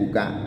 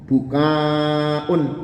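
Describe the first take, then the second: First: The final vowel is short, with no glottal stop. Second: The final vowel is long, with a glottal stop. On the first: It means tears flowing. "kalau dibacanya pendek, buka tanpa ada hamzah" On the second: It means crying out loud. "kalau dibaca panjang"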